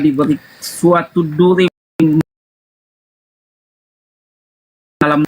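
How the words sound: It is read in a slow, solemn, heartfelt manner. The speaker calls it wrong. "abang bacanya syahdu banget"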